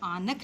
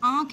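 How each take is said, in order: First: A full n consonant is said before the kh. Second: The vowel is nasalized with no full n. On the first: "लिखने में आनख होगा" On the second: "लेकिन ये बोलने में क्या है"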